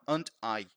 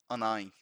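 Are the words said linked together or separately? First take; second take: separately; linked. First: Each word is said separately and fully. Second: The words run together with sounds linked. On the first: This is the form written in a grammar book. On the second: This is how a native speaker says it in real life.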